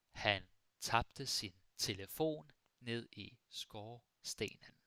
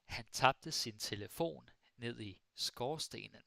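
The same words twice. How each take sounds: First: "Han tabte sin telefon ned i skorstenen" slowly, in separated chunks; slow model sentence. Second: Said in the usual way. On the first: Shown as a demonstration. Teacher repeats sentence slowly for learners.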